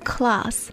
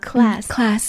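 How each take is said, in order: First: The word is said with an Australian accent. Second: The word is said with an American accent. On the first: "我们在澳洲是读class" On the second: "就美国这边的课程class"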